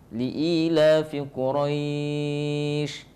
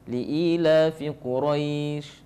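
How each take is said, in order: First: The vowel before the end is held very long. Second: The vowel before the end is held briefly. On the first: "enam harakat" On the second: "dua harakat"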